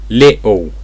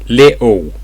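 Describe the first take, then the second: No difference in how they are said.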